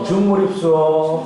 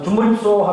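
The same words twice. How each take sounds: First: The greeting is said slowly and carefully. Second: The greeting is said quickly and suddenly. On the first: Locals understand it well. The speaker calls it right. "이렇게 천천히 하면 잘 되는데" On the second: Locals often fail to understand it. The speaker calls it wrong. "갑자기 만나서 준몰입수어 하면 현지인이 잘 못 알아듣는"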